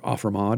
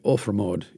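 First: It is pronounced the American way. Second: It is pronounced the Old English way.

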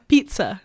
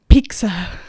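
First: The middle consonant sounds like ts. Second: The middle consonant sounds like a k. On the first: The speaker calls it right. "There you go" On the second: The speaker calls it wrong. "You're literally saying peak"

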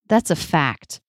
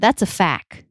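First: The final T of fact is pronounced. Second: The final T of fact is dropped. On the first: The speaker calls it right. "when the T is in a cluster... then we usually pronounce it" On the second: The speaker calls it wrong. "that would sound a little bit weird"

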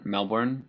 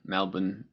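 First: It is said with an American accent. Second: It is said with an Australian accent.

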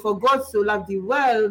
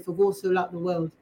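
First: It is said in a French accent. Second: It is said in an English accent.

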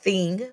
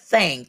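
First: The vowel is the standard 'i' of thing. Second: The vowel is an open 'a' like thang. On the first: "Not thing" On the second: "but thing, T-H-A-N-G"

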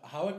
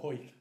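First: It has two syllables with the w sounded. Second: It has one syllable with the w silent. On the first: The speaker calls it wrong. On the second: The speaker calls it right.

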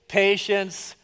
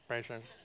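First: The word is said at normal volume. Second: The word is said quietly.

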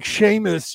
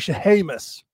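First: The name is said with two syllables. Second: The name is said with three syllables. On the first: The speaker does not know the person well. "instead of saying Seamus" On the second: The speaker knows and venerates the person. "you would say Shehamus"

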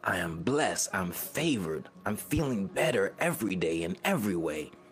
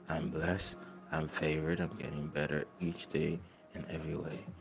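First: It is said powerfully, with conviction. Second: It is said weakly, without conviction.

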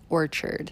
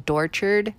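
First: The word begins with a vowel sound. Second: The word begins with a d sound. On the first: The speaker calls it right. "but it's Orchard" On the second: The speaker calls it wrong. "my daughter mistakenly says Dorchard"

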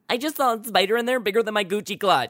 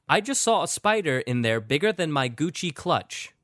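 First: It is said in a put-on Sydney voice. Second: It is said in the speaker's normal voice.

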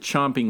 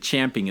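First: The first vowel sounds like the o in 'chop'. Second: The first vowel sounds like the a in 'champ'. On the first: The speaker calls it right. "you pronounce it chomping like O" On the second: The speaker calls it wrong. "Al Michaels got that wrong"

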